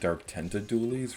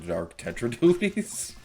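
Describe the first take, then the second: First: The first part is said as 'tenta'. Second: The first part is said as 'tetra'. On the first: The speaker calls it wrong. "I often mispronounce these as" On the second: The speaker calls it right. "rather than"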